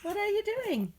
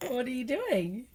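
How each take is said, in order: First: High-pitched coaxing. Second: Gently prompting, stretched out; coaxing question. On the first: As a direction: lift it way up, playful parent voice. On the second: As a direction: ask slowly, coaxing a little one. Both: Real, not acted. Parent coaxing toddler to talk.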